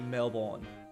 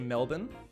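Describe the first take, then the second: First: It is said in an American accent. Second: It is said in an Australian accent. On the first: The speaker calls it wrong. "Americans say Melbourne" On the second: The speaker calls it right. "We say Melbourne"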